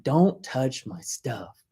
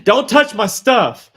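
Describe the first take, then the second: First: Drawn-out, every word spaced; slow menacing warning. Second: Louder and slower, laughing through it; don't touch, said loud with a laugh; mock stern warning. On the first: Retold or imitated. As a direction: lay down the law slowly. Retold warning to brother. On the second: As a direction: laugh while scolding, half in jest. Mock scolding about his things.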